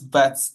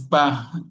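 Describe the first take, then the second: First: The word ends with a final t sound. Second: The word ends without a final t sound. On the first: The speaker calls it wrong. "not bat" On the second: The speaker calls it right. "it is read as ba"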